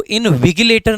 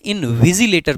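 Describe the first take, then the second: First: इनविजिलेटर with a hard g, as in-vi-GI-lay-ter; mispronounced इनविजिलेटर. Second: इनविजिलेटर with a soft z-like g, in-vi-ZI-lay-ter; correct soft-g इनविजिलेटर. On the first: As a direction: say the middle of इनविजिलेटर with the g of "give". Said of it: "इसको इनविजिलेटर नहीं पढ़ते हैं". (इनविजिलेटर में 'जि' की जगह 'गि' का उच्चारण) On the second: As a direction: say the middle of इनविजिलेटर as "zi", not "gi". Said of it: "इनविजिलेटर पढ़ते हैं". (इनविजिलेटर में 'गि' नहीं, 'ज़ि' का उच्चारण) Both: Shown as a demonstration.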